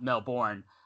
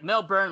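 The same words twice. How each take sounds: First: The last syllable sounds like 'bourne'. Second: The last syllable sounds like 'burn'. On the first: "not Melbourne, like the Bourne Identity" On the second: "like Mr. Burns from The Simpsons"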